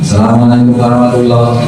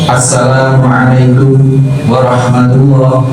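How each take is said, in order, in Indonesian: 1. Diucapkan cepat, bunyi-bunyinya saling menyambung. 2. Diucapkan perlahan, setiap bunyinya terdengar jelas.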